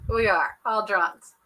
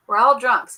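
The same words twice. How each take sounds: First: Put-on We are all drunks said slowly, with the stress on WE; a slower, deliberate restatement; slow emphatic repeat. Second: Put-on We're all drunks called out louder, ALL hit hard; a louder, playful group confession; loud declaration. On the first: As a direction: spell it out slowly, leaning on WE. Repeats the claim more deliberately. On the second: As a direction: announce it louder to the whole chat. Joking insistence to the chat.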